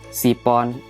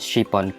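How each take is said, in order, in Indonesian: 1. Kata ini diawali dengan bunyi s biasa. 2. Kata ini diawali dengan bunyi sh. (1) "ngucapinnya cuma biasa aja, kayak sipon" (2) "pengucapannya harus pakai shin, sin besar yang ada titiknya tiga"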